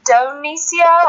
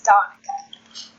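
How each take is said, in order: First: "Donicia" said slowly with an extra "-cia" sound at the end, said as DON-ee-sha; "Donicia", stretched and stressed on the first syllable as the mistaken version; drawn-out "Donicia", the name said wrong; wrong pronunciation. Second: "Donica" like Monica with a D, gently corrected; slow, careful "Donica" as the right way to say it; correct pronunciation. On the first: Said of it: "or how did you say it earlier?". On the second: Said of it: "but it's Donica". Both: Shown as a demonstration.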